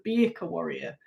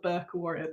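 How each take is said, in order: First: The name is said as two syllables. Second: The name is said as one syllable. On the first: The speaker calls it right. "but it's the Birka Warrior" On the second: The speaker calls it wrong. "I've been calling it the Burke Warrior"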